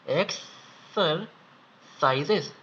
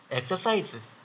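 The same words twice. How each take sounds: First: Slow repeat. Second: Said in the usual way. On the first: Shown as a demonstration. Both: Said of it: "एक और बार बता देता हूँ".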